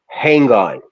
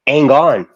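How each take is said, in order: First: Every sound in the words is clearly pronounced. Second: The words are said loosely, sounds dropped. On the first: "you always enunciate it" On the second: "you don't say "hang on.""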